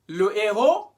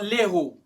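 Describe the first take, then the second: First: The article keeps its vowel before the noun. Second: The article's vowel is dropped before the noun. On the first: The speaker calls it right. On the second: The speaker calls it wrong.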